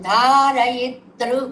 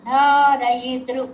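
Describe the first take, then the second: No difference in how they are said.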